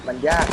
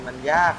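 The two takes are said the same way.

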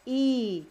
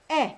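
First: E held as a long ee; long vowel sound. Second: E as a short eh; short vowel sound. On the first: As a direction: say E as a stretched ee, like in read for present. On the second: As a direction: say E briefly, like the vowel in bread. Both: Shown as a demonstration. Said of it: "This sounds E or".

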